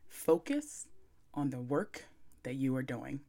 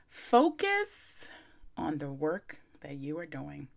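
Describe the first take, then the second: First: It is said in a calm, sultry voice. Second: It is said in her plain, brisk voice.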